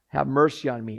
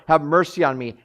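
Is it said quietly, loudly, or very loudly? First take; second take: quietly; loudly. First: It is said at a lower volume. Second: It is said louder.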